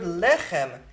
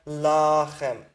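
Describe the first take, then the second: First: LECHEM with a stressed "eh" first; segol vowel. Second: LACHEM with a long, open "ah" first; pausal kamets. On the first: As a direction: say LECHEM as "LEH-khem". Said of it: "that segol is already the accented syllable". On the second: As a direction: stretch LACHEM out as "LAAH-khem". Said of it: "in pause does this segol become a kamet". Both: Shown as a demonstration.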